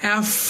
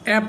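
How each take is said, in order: First: It ends with air flowing out as f. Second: It ends with a p sound. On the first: The speaker calls it right. "এফ হচ্ছে বাতাস বের হবে" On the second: The speaker calls it wrong. "অ্যাপ না অ্যাপ হবে না"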